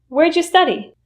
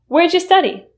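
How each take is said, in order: No difference in how they are said.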